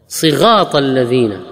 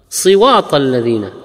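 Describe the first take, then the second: First: The r sound is replaced by a gh sound. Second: The r sound is replaced by a w sound.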